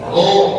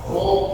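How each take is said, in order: First: The vowel is said with an open mouth. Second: The vowel is said with rounded lips. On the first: The speaker calls it right. "rongga mulutnya terbuka" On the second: The speaker calls it wrong. "Tidak boleh roh itu dimoyongkan. Ketika fathah, roh salah"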